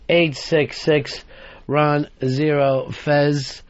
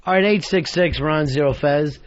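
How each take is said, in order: First: Slow, spelled-out number reading; each word drawn out deliberately; slow repeat. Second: Said in the usual way. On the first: Shown as a demonstration.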